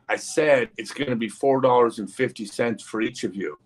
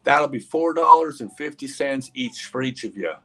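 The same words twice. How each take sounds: First: Mildly impatient, retold restating of the price; insistent repeat. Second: Lightly voiced country girl, higher pitch; name the price like a small-town farm girl; farmer's daughter. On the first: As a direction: repeat it deliberately, as if they didn't listen. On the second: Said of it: "farmer's daughter".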